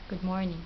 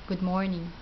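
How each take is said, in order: Both takes have the same delivery.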